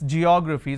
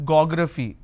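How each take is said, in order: First: The word starts with a J sound. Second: The word starts with a hard G sound. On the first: The speaker calls it right. "It's geography. So it starts with a j sound" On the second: The speaker calls it wrong. "We don't we don't uh, pronounce this as geography"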